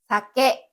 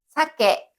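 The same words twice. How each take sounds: First: The high pitch is on the second syllable. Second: The high pitch is on the first syllable. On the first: It means alcohol. "술이란 뜻의 사케는 뒤에 나오는 케를 높게 읽습니다" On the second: It means salmon. "연어라는 뜻의 사케는 앞에 나오는 사를 높게 읽고"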